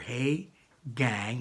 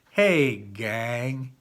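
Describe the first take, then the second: First: It is said in a plain, neutral way. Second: It is said in a warmer, friendlier way.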